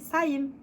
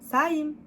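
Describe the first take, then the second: Both takes have the same delivery.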